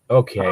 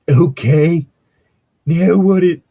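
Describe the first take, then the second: First: It is said in the speaker's normal voice. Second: It is said in an attempted old man voice.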